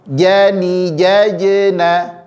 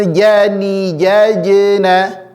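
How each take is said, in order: Both takes have the same delivery.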